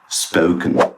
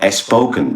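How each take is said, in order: First: The word starts directly with the s sound. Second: An extra vowel is added before the s. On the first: The speaker calls it right. "but spoken" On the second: The speaker calls it wrong. "It's not as spoken"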